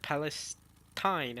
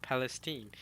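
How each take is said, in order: First: Palestine ending in a drawn-out "-stine"; questioned pronunciation. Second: Palestine ending in "-steen"; preferred pronunciation. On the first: Streamer complaining about Palestine ending "-stine". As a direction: say Palestine slowly with long i at the end. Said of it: "The pronunciations are not consistent". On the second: Streamer arguing for Palestine ending "-steen". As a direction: say Palestine with "-teen" at the end. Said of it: "and not Palestine". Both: Shown as a demonstration.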